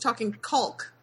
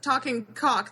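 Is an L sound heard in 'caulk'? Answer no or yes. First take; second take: yes; no. First: The word caulk is said with an L sound. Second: The word caulk is said without an L sound. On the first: The speaker calls it right. "with an L" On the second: The speaker calls it wrong. "This isn't talking caulk"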